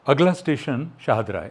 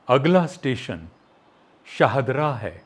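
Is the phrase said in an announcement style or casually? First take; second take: casual; announcement. First: It is said smoothly, like everyday conversation. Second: It is said with deliberate pauses, like an announcement. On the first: "एक तो ये हो गया" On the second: "घर में तो ऐसे बात नहीं करते ना"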